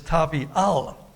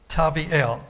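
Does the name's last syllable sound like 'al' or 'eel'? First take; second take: al; eel. First: The last syllable sounds like 'al'. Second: The last syllable sounds like 'eel'. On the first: The name means good for nothing. "where their word said it is Tavial" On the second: The name means God is good. "the way it normally would be um, pronounced"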